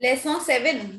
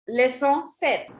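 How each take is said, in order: First: SEVEN said as the English word after French leçon. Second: SEPT said slowly as "set", P left out; slow model of French SEPT without the p; silent P. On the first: Teacher quoting a student's slip in French class, English-sounding SEVEN. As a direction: echo the mistake, SEVEN with an English v and n. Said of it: "Do we say seven in French?". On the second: Teacher modelling the chapter number for students, slow SEPT with silent P. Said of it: "Make P silent". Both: Shown as a demonstration.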